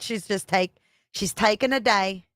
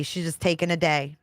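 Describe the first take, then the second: First: Laughing, light attempt at a Jersey accent. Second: Said in the usual way. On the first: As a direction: try out Nicole's Jersey accent. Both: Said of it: "I can't do that Jersey accent".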